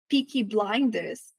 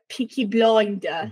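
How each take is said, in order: First: Blinders has an ai vowel sound. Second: Blinders has a vowel close to o. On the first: "A gente fala ai" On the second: "Pra eles é quase um som de O"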